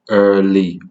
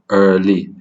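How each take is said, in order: No difference in how they are said.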